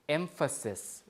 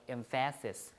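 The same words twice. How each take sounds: First: The stress is on the first syllable. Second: The stress is on the second syllable. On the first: The speaker calls it right. "the stress is on the front instead" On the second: The speaker calls it wrong. "instead of emphasis"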